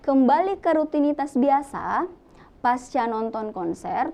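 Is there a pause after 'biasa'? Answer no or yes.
yes. There is a pause after 'biasa'. The post-concert feeling is the subject of the sentence. The speaker calls it right. "itu adalah kalimat yang lebih uh, logis jika seperti itu"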